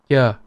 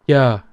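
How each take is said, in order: The two takes are said the same way.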